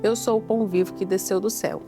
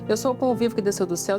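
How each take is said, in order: First: It is read slowly with pauses. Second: It is read quickly without pauses.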